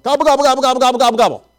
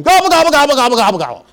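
First: High run of turkey gobbles; imitated rapid gobbling. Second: Loud, high gobbles tumbling downward; imitated gobbling yell. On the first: Bell ringer out-gobbling [name], high rapid playful gobbling. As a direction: rattle off gobbles in one breathless string. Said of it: "starts doing more than two gobbles at him". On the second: [name] yelling back from inside Walmart, high loud gobbling. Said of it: "he yells back at him".

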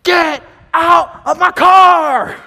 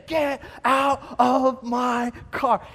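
First: Slow, furious bellow, much higher and louder; angry shout. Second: Slow, drawn-out warning, only a bit raised; milder angry yell. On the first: Car owner yelling at intruders in his car, furious shout. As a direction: roar it at the strangers sitting in your car. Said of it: "this angry voice getting closer". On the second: Owner calling out again from a distance, slow mock yell. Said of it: "we hear it again". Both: Retold or imitated.

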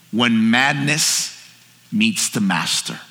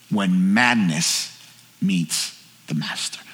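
First: Slow, lowered voice on the key phrase; solemn sermon refrain, drawn out; weighty slow pronouncement. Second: Very low, slow, fading to soft; grave, drawn-out repeat of the key phrase; hushed solemn refrain. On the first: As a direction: let each phrase land with weight. Sermon title delivered slowly for weight. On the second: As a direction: sink deep and let it trail into quiet. Refrain repeated, lower and softer. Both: Real, not acted.

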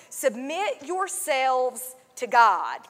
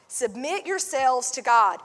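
First: Slow, weighty reading of the verse; slow scripture read. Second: Said in the usual way. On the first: Shown as a demonstration. Pastor reads the verse aloud, slow and solemn.

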